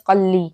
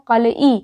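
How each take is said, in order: First: It has two syllables with a doubled l. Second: It has three syllables, ending in a-ee. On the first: This is how the word is actually spoken. "पढ़ा जाता है क़ल्ली" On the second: This is how the word is written. "लिखा जाता है क़लई"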